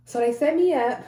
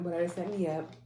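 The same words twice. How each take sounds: First: Excited. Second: Said in the usual way. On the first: Real, not acted. Excited surgery finally scheduled.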